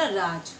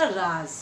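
First: राज with a plain j, like raaj; राज as raaj, no nukta; plain j sound. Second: राज ending in a buzzing z, like raaz; राज as raaz, with nukta; nukta z sound. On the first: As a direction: say राज ending in a hard j. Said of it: "इसको हमने बोला". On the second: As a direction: say राज with z instead of j. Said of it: "इसे बोला". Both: Shown as a demonstration.

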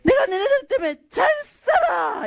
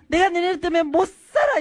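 First: High-pitched mother's yell, comic twist on 잘; mock scolding yell. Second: Higher, fed-up complaint leaning on 못; usual parental scolding. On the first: Young mother yelling at her twins in the bank, mock-angry shout. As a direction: holler it like a scolding, landing hard on 잘. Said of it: "애들을 향해 소리를 쳤어요". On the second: Retold or imitated. Parents scolding their kids as usual, exasperated cry. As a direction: imitate a parent at the end of their rope. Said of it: "되게 우리는".

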